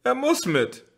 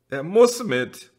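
First: Much higher, almost shrieking; shrill desperate repeat. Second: High and loud, slow and firm; insistent cry. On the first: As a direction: repeat it close to breaking. (schrill und verzweifelt) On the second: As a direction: refuse to leave him, louder. (eindringlich und laut) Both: A narrator's reading. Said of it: "sagte Jana Bertha".

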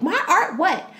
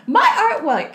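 First: High "My art what?" with a laugh; half-laughing, offended wife; indignant disbelief. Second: High, louder "My art what?"; louder outrage. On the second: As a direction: push the offense harder the second time. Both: Retold or imitated. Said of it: "And she's like".

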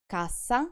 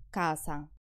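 First: Cassa with a long ss; till, doubled; double ss held. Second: Casa with a short s; quick s in casa; house, single. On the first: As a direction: hold the ss in Cassa. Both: Shown as a demonstration. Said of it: "pay additional attention".

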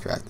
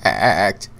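First: Said in the usual way. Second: CRACKED with an exaggerated wobbling break; mock voice crack. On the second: Shown as a demonstration. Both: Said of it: "My voice just cracked there".

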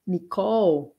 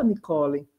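First: Nicole in two syllables, ending on L; English pronunciation. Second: Nicole with a final "ee" sound, ni-KO-lee; Portuguese pronunciation. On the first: Teacher models the name for students, English-style Nicole. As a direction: stretch Nicole as ni-KOHL, no final vowel. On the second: Teacher shows students how not to say it, Portuguese-style Nicole. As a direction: say Nicole the Brazilian way, three syllables. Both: Shown as a demonstration. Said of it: "olha como a pronúncia é diferente em inglês".

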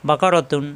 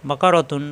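Both takes have the same delivery.

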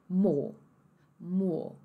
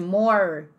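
First: More as "maw", R left in the air; swallowed R. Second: More with the final R sounded; American R. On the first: Teacher showing British more, R swallowed. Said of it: "esse som ele vai ser engolido". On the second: Teacher showing what to avoid, American R. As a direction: curl the R at the end of more. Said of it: "ao invés de more". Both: Shown as a demonstration.

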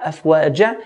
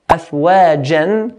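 First: Afwaja ending in open ja, no n; stopping form. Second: Slow afwajan ending in a clear n; tanween ending. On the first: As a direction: drop the n and finish afwaja on a. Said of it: "we'll make it ja". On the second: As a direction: say afwajan drawn out, closing on n. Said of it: "instead of jan". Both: Shown as a demonstration.

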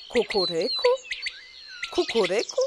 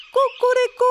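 First: Questioning kukuryku with a rising end; mocking question. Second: Loud high rooster crow; angry crow. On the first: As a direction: echo the rooster's kukuryku with a doubtful rise. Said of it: "kukułka wrzaśnie". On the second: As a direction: crow it out furiously. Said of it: "kogut na patyku zapiał gniewnie". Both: A narrator's reading.

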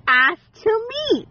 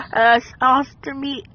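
First: "Asked to me" pitched higher, a lightly voiced imitation; lightly mimicking what he said; mock quote. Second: Said in the usual way. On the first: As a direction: echo him in a higher, mocking voice. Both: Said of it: "and he said".

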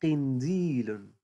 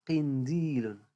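First: قنديل drawn out slowly with the ق held; teacher slowly modelling قنديل; slow stretched word. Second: Said in the usual way. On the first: Shown as a demonstration. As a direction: stretch قنديل so a child can hear the ق. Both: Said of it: "هذا يسمى".

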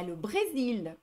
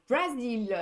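First: "Brésil" said the French way, with an é; French pronunciation. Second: "Brésil" with an open a, like Brasil; foreign pronunciation. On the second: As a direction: say "Brésil" as "Bra-zil". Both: Shown as a demonstration. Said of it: "en anglais, en espagnol".

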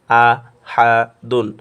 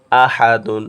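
First: "আ", "হা", "দুন" each alone, pauses between; broken-up syllables. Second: "আ, হা, দুন" blended into one word, louder; joined reading. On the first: Teacher applies method two, "আ, হা, দুন" syllable by syllable. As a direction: break "আ, হা, দুন" into three separate syllables. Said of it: "ভাঙ্গি উচ্চারণ করে পড়ব". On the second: Teacher applies method three, "আ, হা, দুন" read as a whole. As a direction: run "আ, হা, দুন" together without pauses. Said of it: "একসাথে মিলে পড়ব". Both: Shown as a demonstration.

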